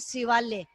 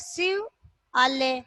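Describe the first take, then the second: First: The two parts are merged into one word. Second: The two parts are said as separate words. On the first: "अपन एक साथ प्रवाह में बोलते हैं" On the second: "या तो अपन बोलेंगे शिव आल्य"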